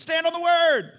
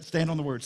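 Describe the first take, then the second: First: High, loud shouted command; preacher's shout. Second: Said in the usual way. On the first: Retold or imitated. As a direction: belt it out high, holding the last word.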